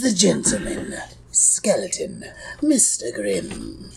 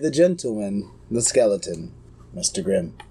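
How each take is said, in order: First: It is said in a put-on character voice. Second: It is said in the speaker's ordinary voice. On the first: The speaker calls it right. "Pardon me" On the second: The speaker calls it wrong. "You didn't do it in the voice"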